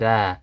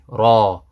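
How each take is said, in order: First: The letter name is said with a light sound. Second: The letter name is said with a heavy sound. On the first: The speaker calls it wrong. "we don't say Ra" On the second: The speaker calls it right. "It's heavy"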